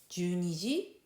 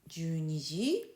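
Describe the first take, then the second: The two takes are said the same way.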